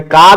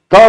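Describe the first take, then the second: First: का said with a long आ vowel; long का sound. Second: क said as one short syllable, higher and louder; short क sound. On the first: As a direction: stretch the vowel in का. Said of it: "ये मैं का भी बोल रहा हूं". (का को लंबे आ के साथ बोलें) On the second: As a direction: say क crisply as a single sound. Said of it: "ऐसा नहीं बोला... क अलग और अ अलग". (क को छोटा और एक झटके में बोलें) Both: Shown as a demonstration.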